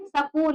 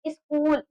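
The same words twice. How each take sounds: First: सकूल with a full vowel after स, sa-kool; सकूल, the स gets its own vowel; wrong split pronunciation. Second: स्कूल as a cluster with a short i sound before it, iskool; स्कूल, no vowel between स and क; correct pronunciation. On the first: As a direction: say सकूल as two open syllables, sa then kool. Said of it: "हम सकूल ना पढ़ करके". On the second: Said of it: "इसको क्या पढ़ते हैं". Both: Shown as a demonstration.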